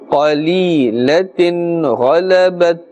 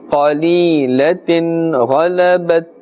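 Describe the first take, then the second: Both takes have the same delivery.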